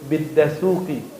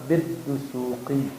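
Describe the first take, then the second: First: A single d followed by an 'a' vowel. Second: A doubled d followed by a 'u' vowel. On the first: The speaker calls it wrong. "Contoh dia nyebut bidasuki, itu orang Padang tuh" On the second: The speaker calls it right. "Yang tepat adalah biddusuki"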